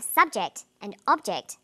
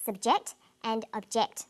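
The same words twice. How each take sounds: First: "subject and object" as SUB-ject and OB-ject; first-syllable stress. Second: "subject and object" as sub-JECT and ob-JECT; second-syllable stress. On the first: Teacher models the noun forms, first-syllable stress on "subject" and "object". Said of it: "first syllable emphasis for the noun form". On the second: Teacher contrasts the verb forms, second-syllable stress on "subject" and "object". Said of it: "second syllable emphasis for the verb form". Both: Shown as a demonstration.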